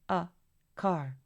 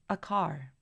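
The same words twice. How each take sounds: First: A pause separates the article from the noun. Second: The reduced article runs straight into the noun. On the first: The speaker calls it wrong. "artículo y luego una pausa seguido del sustantivo" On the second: The speaker calls it right. "conectar su artículo con su respectivo sustantivo"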